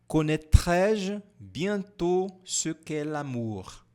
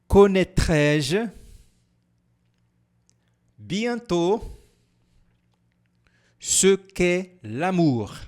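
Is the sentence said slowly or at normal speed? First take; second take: normal speed; slowly. First: It is said at normal speed. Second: It is said slowly.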